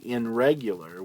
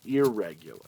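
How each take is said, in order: First: The prefix keeps an n sound before the r. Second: The prefix blends into the r, with no n sound. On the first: The speaker calls it wrong. "We don't say" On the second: The speaker calls it right. "we say"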